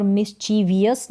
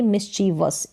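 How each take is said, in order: First: "मिसचीवियस" with an extra i before us; mistaken VI-US ending. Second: "मिसचीवस" with no i before the final us; VUS ending. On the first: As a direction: say "मिसचीवियस" as mis-chee-vi-us. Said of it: "मिसचीवियस नहीं बोलेंगे". ("मिसचीवियस" में वियस वाला अंत) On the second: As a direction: say "मिसचीवस" as mis-chee-vus. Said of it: "इसका correct उच्चारण है". ("मिसचीवस" के अंत में वस, वियस नहीं) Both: Shown as a demonstration.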